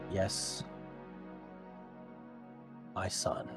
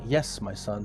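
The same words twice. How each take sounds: First: It is said as a calm, settled confirmation. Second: It is said as an inquiring, questioning reply. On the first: The request is being granted. The speaker calls it right. "More like a confirmation of your question" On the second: The speaker is asking what is wanted. The speaker calls it wrong. "it's not like "Yes, my son," like as if he's asking, "What do you want?""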